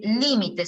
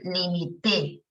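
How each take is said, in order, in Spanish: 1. El acento está en la primera sílaba. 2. El acento está en la última sílaba. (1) "Esdrújula, límite es sustantivo" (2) "muevo la tilde hacia el final y digo limité"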